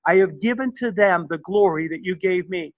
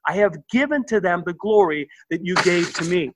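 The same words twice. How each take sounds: First: Said in the usual way. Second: "given" and "glory" leaned on, each word placed deliberately; emphatic reread. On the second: Shown as a demonstration. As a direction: read it again with weight on "given", letting "to me" land firmly. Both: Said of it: "Verse twenty-two is very emphatic".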